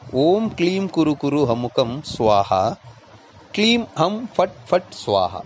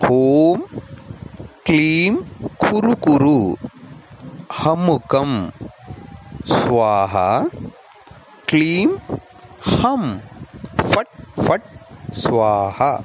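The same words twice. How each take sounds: First: It is said at normal speed. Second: It is said slowly.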